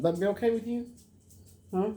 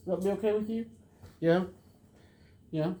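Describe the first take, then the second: First: High sing-song question to the dog; high pet talk. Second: High sing-song question to the dog, asked again; high pet talk. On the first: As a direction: coax the dog gently. Asking the dog, repeated. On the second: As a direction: coax the dog a second time. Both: Real, not acted.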